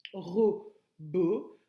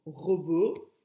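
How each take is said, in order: First: "Robot" split into ro and bot; syllable by syllable. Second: Said in the usual way. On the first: Shown as a demonstration. Teacher counting two syllables for pupils, "Robot" in two beats. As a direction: leave a clear gap between the two syllables of "Robot". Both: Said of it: "deux syllabes".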